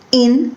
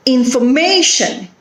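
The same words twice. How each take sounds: First: "Information" in four separate beats; "in... for... ma... tion", clear gaps between pieces; broken into syllables. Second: In-for-MA-tion, pitch peak on MA, then falling; "Information" as one word, MA most prominent; stress on third syllable. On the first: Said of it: "Four syllables". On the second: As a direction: hit MA in "Information". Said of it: "It is on the third syllable". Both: Shown as a demonstration.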